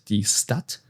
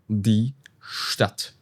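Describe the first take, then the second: First: Stadt begins with a plain s sound. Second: Stadt begins with an sh sound. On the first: The speaker calls it wrong. "It's not die Stadt" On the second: The speaker calls it right. "it's die Stadt ... you can imagine an S H here"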